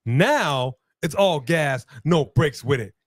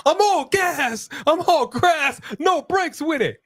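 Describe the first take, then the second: First: Said in the usual way. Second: Very high, stretched put-on voice; high comic catchphrase. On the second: Commentator riffing on all gas, in a high mock voice.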